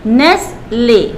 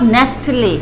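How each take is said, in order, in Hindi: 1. इस शब्द में t की आवाज़ नहीं है। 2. इस शब्द में t की आवाज़ है। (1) "नेस्ले नॉट नेस्टले" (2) "नॉट"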